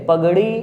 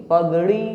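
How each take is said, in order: Both takes have the same delivery.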